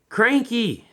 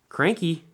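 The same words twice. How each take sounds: First: The name is said very loudly. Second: The name is said at normal volume.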